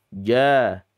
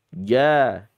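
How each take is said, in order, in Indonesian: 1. Konsonan pertama bersuara. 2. Konsonan pertama bersuara.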